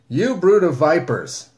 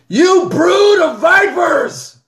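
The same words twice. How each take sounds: First: It is said calmly and tamely. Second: It is said forcefully and loudly.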